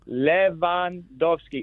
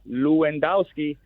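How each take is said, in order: First: The W sounds like a V, with a long O. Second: The W sounds like an English W. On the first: The speaker calls it right. "It's Lewandowski. ... W is like a V. The E is short. The O is long" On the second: The speaker calls it wrong. "It's not Lewandowski"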